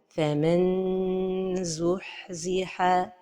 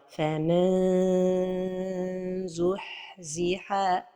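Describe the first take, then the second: First: The tongue touches the palate, giving a clear n. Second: The tongue stays far away, sounding like a vowel. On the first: "La première erreur est de toucher le palais supérieur avec le bout de la langue" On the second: "la deuxième erreur est de trop éloigner la langue du palais supérieur"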